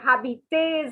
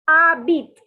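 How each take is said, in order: First: The h or final s is sounded. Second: The h and final s are silent. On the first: The speaker calls it wrong. "don't say habites" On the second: The speaker calls it right. "the H is silent and the S is silent"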